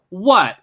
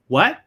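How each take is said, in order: First: It sounds offended, challenging a rude remark. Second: It sounds like a confused request to repeat. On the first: The listener found the remark rude. "It's like, what did you say? That that seemed really mean" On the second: The listener did not hear what was said. "That means, oh, I didn't hear"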